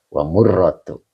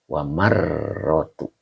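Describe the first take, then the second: First: The vowel after the m sounds like 'u'. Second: The vowel after the m sounds like 'a'. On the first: The speaker calls it right. "murroh bukan marroh" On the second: The speaker calls it wrong. "murroh bukan marroh, maaf"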